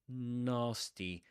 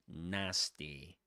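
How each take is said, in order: First: It is said in a British accent. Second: It is said in an American accent. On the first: "But in British English" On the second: "But in American English, that's nasty"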